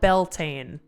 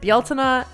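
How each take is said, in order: First: It is said with the English pronunciation. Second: It is said with the Irish pronunciation. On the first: "which is how you would say it in English" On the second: "the technical, I think, Irish pronunciation"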